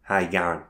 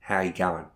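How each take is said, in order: Both takes have the same delivery.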